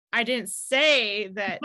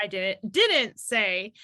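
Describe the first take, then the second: First: "I didn't say that" said slowly, leaning on one word to show the stress; slow, deliberate "I didn't say that", one word pressed harder; shifting emphasis demo. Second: "I didn't, didn't say" said slowly, the stress moved to another word; slow, deliberate "didn't" repeated and pressed; shifting emphasis demo. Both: Shown as a demonstration. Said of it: "the emphasis on the different words".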